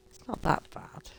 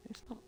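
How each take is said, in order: First: It's not that bad whispered under the breath; whispered aside. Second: Said in the usual way. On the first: Shown as a demonstration. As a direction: drop to a whisper to play it down.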